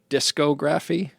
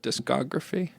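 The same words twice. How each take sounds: First: It starts like disco, stressing the first syllable. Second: It is said normally, stressing the second syllable. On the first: It is a pun on disco music. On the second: It is the ordinary word for recordings.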